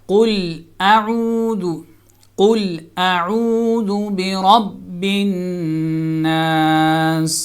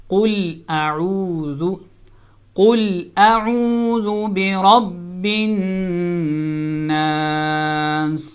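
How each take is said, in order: The two takes are said the same way.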